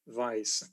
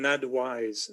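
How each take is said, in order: First: The middle consonant is a v sound. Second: The middle consonant is a w sound. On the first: The speaker calls it wrong. "not an advice" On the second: The speaker calls it right. "I prefer the pronunciation adwise"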